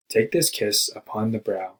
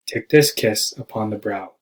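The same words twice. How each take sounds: First: Slow, measured poetry recital; poem reading. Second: Kiss and brow punched, slow iambic beat; stress on kiss and brow. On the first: Acted. Student recites Poe's poem to the class, slow and measured. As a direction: read the line like a poem, slowly. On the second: Shown as a demonstration. Student demonstrates the meter, stressing kiss and brow. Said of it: "with emphasis on the words kiss and brow".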